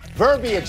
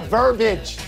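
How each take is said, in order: First: The word is said with three full syllables. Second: The word is squeezed into two syllables. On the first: The speaker calls it right. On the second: The speaker calls it wrong. "not verbiage"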